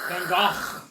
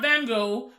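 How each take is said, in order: First: The g sounds are harsh and throaty, with friction. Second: The g sounds are soft, without throaty friction. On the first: The speaker calls it right. "extra extra Dutch with it. Van Gogh, a lot of phlegm" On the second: The speaker calls it wrong. "I was saying it incorrectly. It's not Van Gogh"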